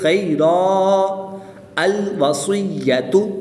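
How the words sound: It stops after a long vowel before the next word. "जब वक़्फ़ करेंगे"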